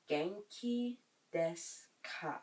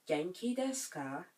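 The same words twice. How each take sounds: First: Slow, separated "Genki desu ka?"; slow teaching repeat. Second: Said in the usual way. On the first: Shown as a demonstration. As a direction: stretch it out piece by piece for learners. Teacher repeats phrase slowly for learners.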